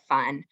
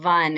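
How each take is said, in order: First: The word begins with a voiceless f sound. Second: The word begins with a voiced v sound. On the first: This is the intended word. The speaker calls it right. "instead of fun" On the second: This is the voicing error. The speaker calls it wrong. "a V for an F"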